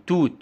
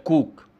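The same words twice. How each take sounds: First: Said in the usual way. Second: كوك with k at both ends; child's كوك, k-initial and k-final; child's assimilation error. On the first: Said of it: "توت يقول لك". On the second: Shown as a demonstration. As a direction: say كوك, both t sounds turned to k. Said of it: "بيتأثر بصوت تاني".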